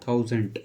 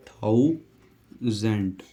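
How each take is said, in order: First: Said in the usual way. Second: थाउजेंड drawn out very slowly; teacher modelling थाउजेंड slowly; slow model pronunciation. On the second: Shown as a demonstration. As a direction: stretch थाउजेंड out for copying. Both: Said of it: "ये होगी हमारी थाउजेंड की".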